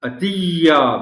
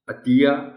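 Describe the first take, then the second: First: The doubled y is pressed on very heavily. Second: The doubled y is said lightly, without extra force. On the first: The speaker calls it wrong. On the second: The speaker calls it right.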